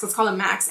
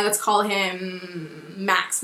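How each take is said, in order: First: Said in the usual way. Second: Slow drawn-out. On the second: Shown as a demonstration.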